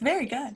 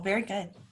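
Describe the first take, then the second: First: It is said in a put-on teacher voice. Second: It is said in an ordinary speaking voice.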